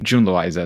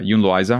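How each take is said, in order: First: The name begins with a J sound. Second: The name begins with a Y sound. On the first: The speaker calls it right. "June Loiza is the English J" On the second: The speaker calls it wrong. "Is that the right one, way to say it?"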